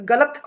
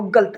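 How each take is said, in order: First: Said in the usual way. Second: गलत said as "galt", no vowel between l and t; tatsam pronunciation. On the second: Shown as a demonstration. Teacher shows learners the tatsam form, गलत pronounced "galt". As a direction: run the l straight into the t in गलत. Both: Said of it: "गलत जो है वो तत्सम है".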